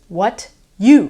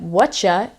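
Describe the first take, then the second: First: The two words are said fully and separately. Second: The words blend into one reduced word, whatcha.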